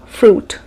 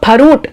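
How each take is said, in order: First: "fruit" as one syllable; correct pronunciation. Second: "Farut" with a vowel splitting f and r; wrong pronunciation. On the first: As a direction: run f straight into r in fruit. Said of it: "It is fruit". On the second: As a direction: say Farut as two syllables, "pha-root". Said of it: "It is not farut". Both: Shown as a demonstration.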